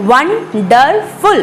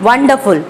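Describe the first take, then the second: First: Wonderful split as won-der-ful; syllable by syllable. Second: Said in the usual way. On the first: Shown as a demonstration. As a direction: say wonderful slowly, each syllable on its own. (wonderful को तीन अलग syllable में) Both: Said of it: "तीन syllable use हुए हैं".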